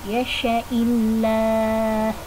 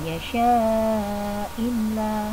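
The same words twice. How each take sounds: First: The vowel in the sha syllable is short. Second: The vowel in the sha syllable is long. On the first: The speaker calls it right. "syaknya dibaca pendek" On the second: The speaker calls it wrong.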